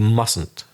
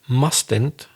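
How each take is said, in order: First: The middle T is dropped. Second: The middle T is clearly pronounced. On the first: "that middle T often is not pronounced. So people say" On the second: "I'll exaggerate"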